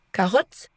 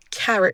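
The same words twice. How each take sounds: First: "carotte" with a full French o; wrong English, read as French "carotte"; French-style mistake. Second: "carrot" with weak schwa second vowel; English schwa. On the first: Teacher shows what not to say, French-style vowels. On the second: Teacher corrects the learner's mistake, English schwa. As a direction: stress the start of "carrot", reduce the o. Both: Shown as a demonstration. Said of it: "On ne dit pas carotte".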